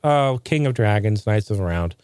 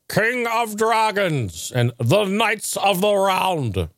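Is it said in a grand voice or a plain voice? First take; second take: plain; grand. First: It is said in a plain, casual voice. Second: It is said in a grand, old-fashioned voice.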